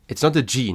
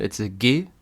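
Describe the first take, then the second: First: G said the English way as jee; "G" pronounced like English jee, the wrong way. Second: "G" said the German way as geh; hard German geh for "G". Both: Shown as a demonstration. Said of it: "Very important".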